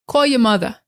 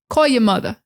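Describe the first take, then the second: The two takes are said the same way.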